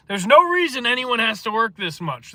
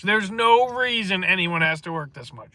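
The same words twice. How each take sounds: First: "no" punched high and loud; emphatic. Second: Said in the usual way. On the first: Real, not acted. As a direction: hit "no" hard and raise the whole line. Emphatic repeated statement.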